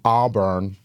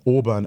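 First: Auburn is said in an American accent. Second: Auburn is said in a non-American accent.

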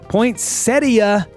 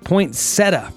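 First: An 'ee' sound comes before the final syllable. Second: No 'ee' sound comes before the final syllable. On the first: "I said it right for once" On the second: "the more commonly used poinsettia pronunciation"

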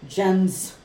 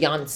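First: The name begins with an English J sound. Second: The name begins with a Y sound. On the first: The speaker calls it wrong. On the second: The speaker calls it right.

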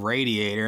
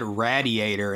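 First: The first syllable sounds like 'ray'. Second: The first syllable sounds like 'rad'. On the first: The speaker calls it right. "instead of radiator ... Ray is in your name" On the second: The speaker calls it wrong. "He said radiator"

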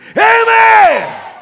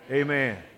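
First: It is shouted in a loud voice. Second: It is said in a normal, quiet voice.

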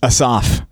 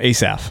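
First: The stress is on the last syllable. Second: The stress is on the first syllable. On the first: "is how my computer pronounced it, at least. / the emphasis is on the last syllable, usually" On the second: "here in Texas, we just call him Asaph"

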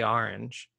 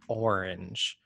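First: The word is pronounced in a casual, everyday way. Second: The word is pronounced carefully and deliberately. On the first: "if I'm just talking normally, I say orange" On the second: "if I'm really trying to think about it, I will say orange"

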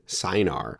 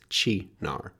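First: The word begins with an s sound. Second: The word begins with a harder consonant sound. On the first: The speaker calls it wrong. "I pronounced the CY as a S sound as Sinar" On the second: The speaker calls it right. "it's more like a hard C in Italian, so it's Chinar"

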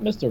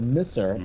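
First: The middle t sound is clearly pronounced. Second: The middle t sound is dropped entirely. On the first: "not Mister" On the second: "Misser, M-I-S-S-E-R"

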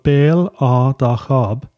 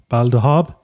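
First: The name is said slowly with each part separate. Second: The name is said quickly with the parts run together.

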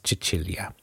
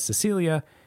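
First: The name is pronounced the Italian way. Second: The name is pronounced the English way. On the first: The speaker calls it right. "In her native Italian, it is Cecilia" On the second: The speaker calls it wrong. "in English, her name is mispronounced as Cecilia"

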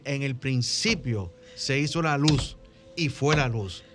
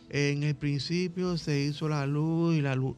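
First: It is said joyfully, with enthusiasm. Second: It is said flatly, without enthusiasm.

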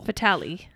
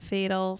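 First: It sounds like the French word 'fatale'. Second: It sounds like the English word 'fatal'. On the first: The speaker calls it right. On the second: The speaker calls it wrong.

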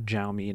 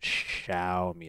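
First: The word does not begin with 'sh'. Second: The word begins with an 'sh' sound. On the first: The speaker calls it wrong. "So not Xiaomi" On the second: The speaker calls it right.

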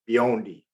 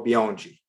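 First: The d is said as a plain d. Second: The d is said like a j sound. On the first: This is an American reading of the name. "my U.S. pronunciation of it would be Biondi" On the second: This is the Brazilian way of saying the name. "The D's are G. ... I'm going to go Biondi"

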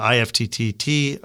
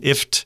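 First: The T letters are pronounced out loud. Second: It is said as one short word. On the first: The speaker calls it wrong. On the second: The speaker calls it right.

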